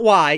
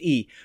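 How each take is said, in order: First: The word sounds like English 'why'. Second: The word sounds like English 'ee'. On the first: The speaker calls it wrong. "It's not Y" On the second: The speaker calls it right. "It's pronounced E"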